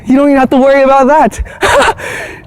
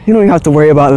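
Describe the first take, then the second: First: Higher, lilting, rising at the end; playful sing-song. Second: Said in the usual way. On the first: Shown as a demonstration. Vlogger teasing viewers to drop worry, high sing-song. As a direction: sing it lightly to shrug the worry off. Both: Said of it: "repeated line to viewers".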